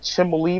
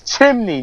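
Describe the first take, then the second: First: The word is said with an L sound. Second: The word is said without an L sound. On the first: The speaker calls it wrong. "not chimney. There's no L in it" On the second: The speaker calls it right. "It's chimney"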